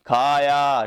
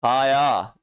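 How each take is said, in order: First: खाया slow, with the आ sound stretched; drawn-out vowel. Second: Said in the usual way. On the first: Shown as a demonstration. Teacher making students hear the आ ending, slow and drawn out. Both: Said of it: "तो ध्वनि क्या आ रही है भाई".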